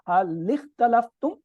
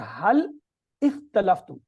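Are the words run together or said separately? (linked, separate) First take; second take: linked; separate. First: The two words are run together without a break. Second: The two words are said separately, vowel fully sounded. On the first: "एक में मिला दिया" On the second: "एक में मिलाए बगैर"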